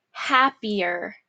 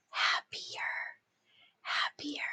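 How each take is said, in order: First: Said in the usual way. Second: Soft whisper of the word. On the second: Shown as a demonstration. Teacher whispering the dictation word to the class. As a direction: hush it right down. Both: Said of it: "dictation drill, word repeated".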